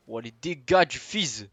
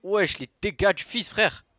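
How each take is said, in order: First: Slow, stretched furious yell; raging gamer. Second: Shrieked high and very loud; raging gamer. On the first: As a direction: bellow it in outrage. Shouting, stretched out. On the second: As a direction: scream it at full rage. Repeat, even higher scream. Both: Real, not acted.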